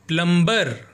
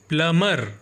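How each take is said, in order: First: The b sound is pronounced in the middle. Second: The b sound is silent in the middle. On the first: The speaker calls it wrong. "ना कि प्लम्बर" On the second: The speaker calls it right. "इसका सही pronunciation प्लमर होता है"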